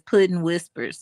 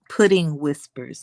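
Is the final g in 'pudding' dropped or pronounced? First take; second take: dropped; pronounced. First: The final g of pudding is dropped. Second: The final g of pudding is clearly pronounced. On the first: The speaker calls it wrong. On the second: The speaker calls it right.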